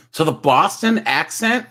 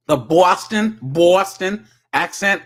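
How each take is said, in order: First: Said in the usual way. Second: Boston accent with a rounded vowel in "Boston"; exaggerated Boston accent, slow and punched. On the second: Shown as a demonstration. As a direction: lean on "Boston" higher in a mock Boston accent.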